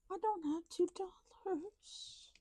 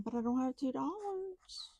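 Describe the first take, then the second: First: Breathy high whisper repeating it. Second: Said in the usual way. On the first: Shown as a demonstration. Saving money on camera, high whisper to viewers. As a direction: whisper it again, pitched up, to the viewers.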